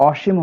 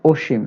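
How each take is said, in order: First: অসীম mispronounced "ɔshim" with open ɔ; wrong open vowel. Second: অসীম as "oshim", rounded o first; correct o vowel. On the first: Teacher rejecting a form for students, open-vowel অসীম. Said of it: "হবে না". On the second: Teacher correcting for students, o-vowel অসীম. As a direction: start অসীম on a closed o. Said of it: "এটা অসীম হবে না". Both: Shown as a demonstration.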